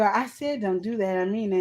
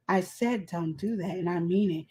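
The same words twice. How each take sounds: First: Said in the usual way. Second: Soft, low, restrained warning; quiet firm talking. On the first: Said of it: "I go". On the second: Retold or imitated. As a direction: imitate a quietly stern mother's friend. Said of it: "they be quiet talking like".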